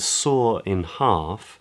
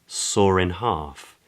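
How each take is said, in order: First: The words saw and in stay separate. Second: An R sound links saw and in.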